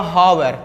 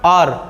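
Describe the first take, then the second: First: The word begins with an audible h sound. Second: The word begins directly with a vowel sound. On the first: The speaker calls it wrong. "अगर इसको बच्चा पढ़ेगा हावर" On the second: The speaker calls it right. "इसका उच्चारण होता है आर"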